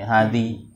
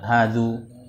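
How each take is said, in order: First: The word ends in an i vowel. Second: The word ends in an u vowel. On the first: "Tidak bisa dibaca" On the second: "Tidak bisa dibaca hadzu"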